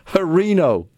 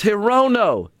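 First: The name starts with 'Ho', then 'ree-no'. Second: The name starts with 'Hi', then 'roh-no'. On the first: The speaker calls it wrong. "KJP mispronounced Horino's name" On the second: The speaker calls it right. "It's Hirono"

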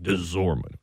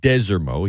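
First: The middle syllable is emphasized, with a z-like sound. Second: The first syllable is emphasized. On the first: The speaker calls it wrong. "a lot of folks around here enunciate the middle part of Desormeaux, almost put like a Z on it" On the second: The speaker calls it right. "he enunciates the beginning of it"

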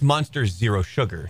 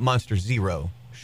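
First: The pause falls after the word Monster. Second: The pause falls after the word Zero. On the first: The drink is a sugar-free Monster. The speaker calls it right. "I think that's Monster Zero Sugar" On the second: The drink is Monster Zero with extra sugar. The speaker calls it wrong. "it's going to sound like it's called Monster Zero with extra sugar"

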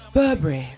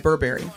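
First: It is said with a London accent. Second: It is said with an American accent.

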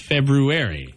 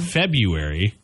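First: The R after the B is pronounced. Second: The R after the B is dropped. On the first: The speaker calls it right. "There's an R in there. It's not a silent R" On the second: The speaker calls it wrong. "It's not February"

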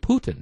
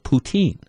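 First: The last syllable has a short 'in' vowel. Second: The last syllable has a long 'een' vowel. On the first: The speaker calls it right. "The E is silent" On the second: The speaker calls it wrong. "I have always thought it was called poutine"

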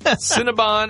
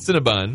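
First: The last syllable is said as 'bon'. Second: The last syllable is said as 'bun'. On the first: It follows the official spelling of the name. "technically Cinnabon because it's an O at the end" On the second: It treats the name like cinnamon bun. "it's a cinnamon bun"

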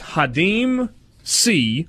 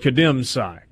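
First: The name starts with an H sound. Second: The name starts with a K sound. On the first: This is the name's actual pronunciation. The speaker calls it right. "That's the way it's pronounced" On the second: This is how most people have been saying it. The speaker calls it wrong. "it looks like Kadeem Sy"

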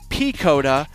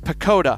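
First: The E vowel is stretched out long. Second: The E vowel is not stretched out. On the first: "I just take that E and I just stretch it out" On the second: "the correct pronunciation of it is Picota"

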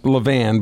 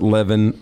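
First: The last syllable sounds like 'van'. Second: The last syllable sounds like 'vin'. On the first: The speaker calls it right. "it's pronounced Levan" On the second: The speaker calls it wrong. "people would want to pronounce it Levin"

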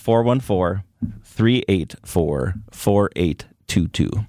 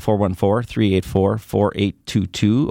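First: The number is said slowly. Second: The number is said fast.

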